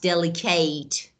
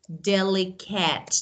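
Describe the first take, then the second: First: The last syllable is a full 'eight'. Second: The last syllable is a short, reduced 'it'. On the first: The speaker calls it wrong. "not delicate" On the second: The speaker calls it right. "they are adjectives or delicate"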